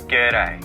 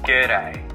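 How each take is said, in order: First: The words are squeezed into one short syllable. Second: The same.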